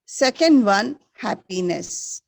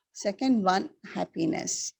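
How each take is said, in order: First: Teacher calling out the answer; loud recap. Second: Said in the usual way. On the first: Shown as a demonstration. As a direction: announce it clearly to the class. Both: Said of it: "Once again, repeat".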